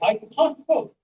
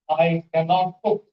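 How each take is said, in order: First: Cannot is shortened to one syllable, can't. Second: Cannot is said in full as two syllables. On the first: The speaker calls it right. "We say" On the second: The speaker calls it wrong. "we don't say"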